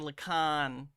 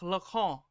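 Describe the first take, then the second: First: The name is said with an American pronunciation. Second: The name is said with a French pronunciation. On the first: The speaker calls it wrong. "I'm American though, so I'm gonna say Lacan" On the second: The speaker calls it right. "He's French, so I know it's supposed to be like Jacques Lacan"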